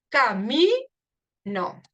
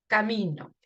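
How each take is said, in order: First: Camino said very slowly, leaning on MI; slow stressed demo. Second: Said in the usual way. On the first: Shown as a demonstration. Teacher marking the stressed syllable for the class, very slow. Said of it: "lo que es el fonema". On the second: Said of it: "No digo camino, ni digo caminó".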